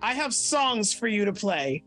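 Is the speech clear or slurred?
clear. The words are spoken clearly.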